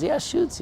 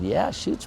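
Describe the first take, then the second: First: Pitched way up, caught off guard; a double-take mid-answer; startled yes. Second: Said in the usual way. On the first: Acted. Beach surfer startled by the stranger, high and surprised.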